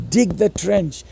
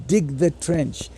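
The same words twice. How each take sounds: The two takes are said the same way.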